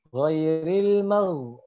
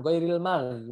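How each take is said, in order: First: Ghairil mau drawn out, heavy throaty gh; slow, thick gh in ghairil mau; ghain tebal. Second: Ghairil mag with hard, thin g sounds; contoh salah, tipis. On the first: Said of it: "Jadi tebal". (ghairil mau pelan, gh tebal berdengkur) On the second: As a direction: say ghairil mag without the throat rasp. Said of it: "bukan, tapi ghairil mau". (ghairil mag tipis dengan g keras) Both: Shown as a demonstration.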